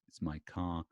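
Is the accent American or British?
American. The r at the end of car is pronounced.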